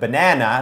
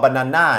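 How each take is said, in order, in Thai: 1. การเน้นเสียงอยู่ที่พยางค์กลาง 2. การเน้นเสียงอยู่ที่พยางค์สุดท้าย (1) "ต้องเป็นหน้าครับแบบหน้าฝนหน้าร้อน" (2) "คนไทยก็ ... แต่ว่าเน้นผิดพยางค์"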